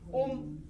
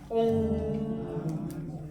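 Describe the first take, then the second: First: The syllable ends in a clipped m sound. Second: The syllable ends in a resonant ng sound. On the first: It is the form used for rituals and ceremonies. "옴 하면 탁탁 끊어지죠" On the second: It is the form used for personal practice. "옹 하면 ... 바이브레이션이 일어나"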